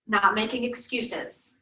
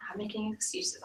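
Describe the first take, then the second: First: "not making excuses" drawn out slowly with "not" stressed; slow emphasis. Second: "not making excuses" repeated much softer, almost to herself; quiet echo. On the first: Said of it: "slow emphatic phrase". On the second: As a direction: let "not making excuses" fall away into a soft echo. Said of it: "quiet echo of phrase". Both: Shown as a demonstration.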